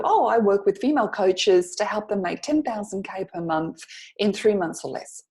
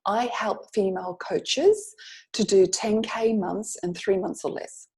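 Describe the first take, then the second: First: Easy, natural chat reply; casual conversational answer. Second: Slowly spelled-out pitch line; slow sample pitch. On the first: Coach voicing a client's casual answer in conversation. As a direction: toss it off like small talk. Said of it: "so what do you do?". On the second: Coach slowly demonstrating the one-sentence pitch to students. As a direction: read the line slowly and clearly. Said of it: "you could say something like". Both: Shown as a demonstration.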